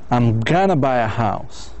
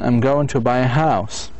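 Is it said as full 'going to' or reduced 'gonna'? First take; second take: reduced; full. First: Going to is reduced to gonna. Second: Going to is said in full.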